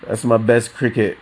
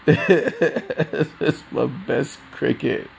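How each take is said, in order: First: Said in the usual way. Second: Slowed down, laughing through it. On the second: Real, not acted. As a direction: laugh while saying it, higher.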